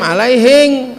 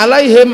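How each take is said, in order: First: It ends with an ng sound, Bugis style. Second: It ends with a plain m sound.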